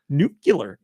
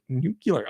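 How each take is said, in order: First: The word is said as 'nu-cu-lar'. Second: The word is said as 'nu-clear'. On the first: The speaker calls it wrong. "he said it multiple times" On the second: The speaker calls it right. "It's pronounced nuclear"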